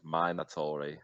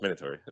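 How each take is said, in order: First: Every syllable is pronounced with exaggerated care. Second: The word is pronounced casually without extra care. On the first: The speaker calls it wrong. "they say it like so enunciate" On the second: The speaker calls it right. "it's just minatory"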